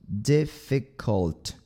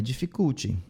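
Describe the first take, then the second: First: DIFFICULT said slowly with short, lax I's; short I sounds. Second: "dificulty" with a Brazilian "djee" and "chee" ending; wrong Brazilian pronunciation. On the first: Teacher models a word for learners, slow short vowels. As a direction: spell out "Difficult" syllable by syllable, dark L at the end. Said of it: "esses sons aqui de I são bem curtinhos". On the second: Teacher mimics the learners' mistake, Brazilian-accented pronunciation. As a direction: add an I after the final T of "dificulty". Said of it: "Não é dificulty". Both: Shown as a demonstration.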